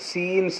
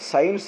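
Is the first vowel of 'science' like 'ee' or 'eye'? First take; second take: ee; eye. First: The first vowel is a long 'ee'. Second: The first vowel sounds like 'eye'. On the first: The speaker calls it wrong. "సీన్స్ అనం కదా" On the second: The speaker calls it right. "అందుకే సైన్స్ అంటాం"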